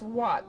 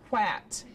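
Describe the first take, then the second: First: The vowel sounds like the vowel in hot. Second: The vowel sounds like the vowel in cat. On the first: The speaker calls it right. "But it's not, it's what" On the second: The speaker calls it wrong. "It looks like it should be pronounced at, quat"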